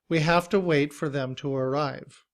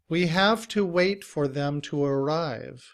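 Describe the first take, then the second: First: The word to is reduced to uh. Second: The word to has a full oo vowel.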